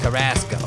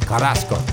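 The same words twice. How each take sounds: First: The name is said in a New Jersey accent. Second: The name is said with Spanish pronunciation. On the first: "we're going to pronounce it like you're from Jersey" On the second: "But it's probably like"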